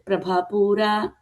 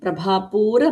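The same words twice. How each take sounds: First: One vowel is drawn out long. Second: The same vowel is kept short. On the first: The speaker calls it wrong. "Did you hear the dirgham there?" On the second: The speaker calls it right. "But it is hrasvam"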